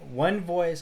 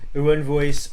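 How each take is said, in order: First: It is said in the speaker's ordinary voice. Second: It is said in a put-on imitating voice.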